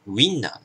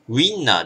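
First: The start is one gliding syllable, wi. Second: The start is two separate syllables, u-i. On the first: The speaker calls it right. "小さいイですね" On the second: The speaker calls it wrong. "ではなく"

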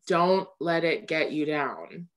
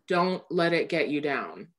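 First: It sounds tired and heavy, like a warning. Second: The same.

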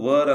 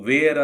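First: The vowel sounds like 'er', as in 'her'. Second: The vowel sounds like 'air', as in 'wear'. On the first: The speaker calls it right. "ಆದಷ್ಟು ವರ್ ಅಂತ ಹೇಳಲಿಕ್ಕೆ ಪ್ರಯತ್ನಿಸಿ" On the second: The speaker calls it wrong. "ನೀವು ವೇರ್ ಅಂತ ಉಚ್ಚಾರ ಮಾಡ್ತಾ ಇರಬಹುದು"

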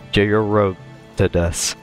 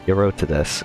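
First: The name starts with a J sound. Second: The name starts with a Y sound. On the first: The speaker calls it wrong. "or is it Jayarotidus?" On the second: The speaker calls it right. "I'm guessing the J is silent"

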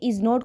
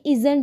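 First: It is said as two separate full words. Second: It is said as one contracted word. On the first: "इज़ नॉट को जब add करेंगे" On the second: "ये इज़ंट बन जाएगा"

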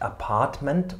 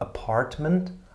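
First: No r sound is pronounced. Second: An r sound is pronounced. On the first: The speaker calls it right. "Apartment und nicht" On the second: The speaker calls it wrong. "und nicht Apartment"

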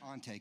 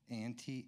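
First: The name is said with its own native vowels. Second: The name sounds like the English word auntie. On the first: The speaker calls it right. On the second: The speaker calls it wrong. "You mostly get Auntie?"

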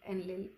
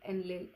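The two takes are said the same way.

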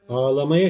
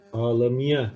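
First: The vowel after m is a full a. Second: The vowel after m is narrowed. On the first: "ağlamaya şeklinde yazılır" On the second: "harf daralması kuralı gereği ağlamaya şeklinde telaffuz ederiz"

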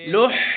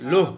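First: The h is a strong, breathy throat sound. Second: The h is a light, plain breath sound. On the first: The speaker calls it right. "গরম বাতাস প্রবাহিত থাকবে" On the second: The speaker calls it wrong. "তাহলে এই হায়ের হাওয়াস হয়ে যাবে"

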